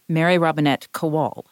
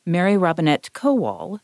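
First: "Kowal" stressed on the second syllable, ko-WAL. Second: "Kowal" stressed on the first syllable, KO-wal. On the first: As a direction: end the full name on a stressed "-wal" in "Kowal". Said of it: "it sounds stupid when you say my entire name". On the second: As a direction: hit the "Ko" of "Kowal", letting the second syllable fall back. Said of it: "I put the emphasis on that first syllable". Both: Shown as a demonstration.

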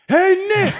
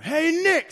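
First: High, loud yell from far off; hollering down the field to the coach; calling across the field. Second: High hail to the coach; a lineman hollering casually; calling out. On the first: Lineman walking the forty yells to Nick Saban, a loud high call. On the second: Lineman calls to Nick Saban before the sprints, a high hail. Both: Retold or imitated.

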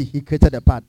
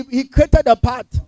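First: Said in the usual way. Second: Created drawn out slowly and pitched high; stress on created. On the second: Shown as a demonstration. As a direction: lean slowly on "created", raised and stretched.

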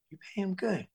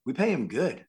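First: High, soft incredulous question; amazed echo. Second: Said in the usual way. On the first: Retold or imitated. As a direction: echo it back in hushed, high-pitched wonder. Amazed echo of the crew's answer.

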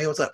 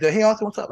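First: Said in the usual way. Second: High, chirpy imitated hello; hammed-up bright greeting; mock cheery greeting. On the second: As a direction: play the overly friendly acquaintance, pitched up. Acquaintance greeting, retold.

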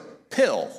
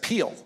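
First: Said in the usual way. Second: "Peel" with a long ee vowel instead of the short i of pill; Southern vowel makes "Peel" rhyme with feel. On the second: Retold or imitated. Pastor retelling asking wife for his pill, Southern "Peel" with a long ee. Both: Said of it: "the southern accent still comes out".

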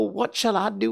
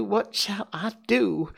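First: High, quick frantic question; tearful plea. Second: Slow, high despairing repeat; tearful wail. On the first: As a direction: ask it in a panic. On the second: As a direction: drag it out in despair. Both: Acted. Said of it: "burst out crying".

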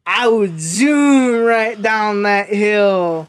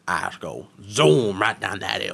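First: Slow, loud drawn-out boast; mock Tweaker Ryan boast. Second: A hint of a Cajun accent. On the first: Retelling Tweaker Ryan's answer, a slow loud bragging drawl. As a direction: ham up a dopey daredevil brag. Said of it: "you didn't do it justice". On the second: Quoting coworker's hill answer in a mild Cajun accent. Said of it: "borderline Cajun accent".

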